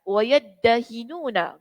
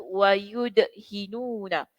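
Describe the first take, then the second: First: The d sound is doubled after a first a. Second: The d sound is single after a first u. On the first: "dibaca dengan mentasydidkan huruf dal" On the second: "mendammahkan huruf awalnya dan mensukunkan huruf dal"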